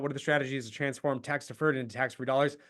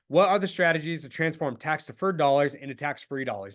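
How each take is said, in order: First: It is said quickly and mumbled. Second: It is said slowly and clearly.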